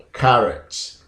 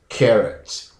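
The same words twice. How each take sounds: First: "carrot" starting with "kah", KAH-rot; first pronunciation. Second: "carrot" starting with "keh", KEH-rot; second pronunciation. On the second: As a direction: say "carrot" with an "eh" first. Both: Shown as a demonstration. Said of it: "the difference is the first syllable".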